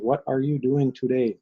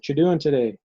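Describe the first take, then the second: First: Every word is said fully and carefully. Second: The words are run together and shortened.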